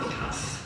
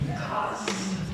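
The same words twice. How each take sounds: First: The final sound is a hissing s. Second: The final sound is a buzzing z. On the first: The speaker calls it wrong. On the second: The speaker calls it right. "it's a Z. It's a definite Z"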